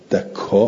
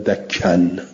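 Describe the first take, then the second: First: It ends in a long vowel and a glottal stop. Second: It ends in a short vowel plus n. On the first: "بالمد والهمزه" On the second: "قصر یعنی همزه رو ندارد، مد رو نداره، تنوینم داره"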